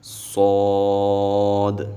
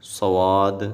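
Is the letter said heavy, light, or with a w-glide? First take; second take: heavy; w-glide. First: The letter is said heavy and full. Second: The letter is said with a w-glide. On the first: The speaker calls it right. "सौद को हमने मोटा पढ़ना है" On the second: The speaker calls it wrong. "सवाद ऐसे भी नहीं पढ़ेंगे"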